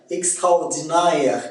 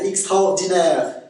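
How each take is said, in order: First: "extraordinaire" ending in na-ère; Québécois diphthong. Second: Said in the usual way. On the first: Shown as a demonstration. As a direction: glide the end of "extraordinaire" into ah-eh. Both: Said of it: "c'est A E en accent québécois".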